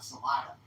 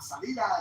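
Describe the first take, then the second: First: The second vowel sounds like 'ah'. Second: The second vowel sounds like 'ee'. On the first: "they call it Salada down there" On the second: "Which means exit"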